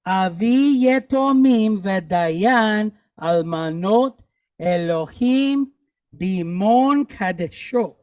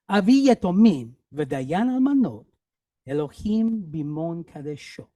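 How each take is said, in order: First: Slow, evenly drawn-out Hebrew reading; slow read-along. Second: Said in the usual way. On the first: Shown as a demonstration. Teacher repeating the sentence with class, slow and deliberate. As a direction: stretch each word for learners to follow. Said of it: "Let's do it again".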